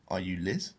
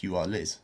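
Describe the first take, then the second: First: "Are you Liz?" rising on Liz; "Are you Liz?" as a rising question; question intonation. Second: "You are Liz" told as a fact, no rise; "You are Liz" as a declarative; statement intonation. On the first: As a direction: lift "Liz" at the end of "Are you Liz?" to ask. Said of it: "is in the question". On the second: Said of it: "Or it can mean". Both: Shown as a demonstration.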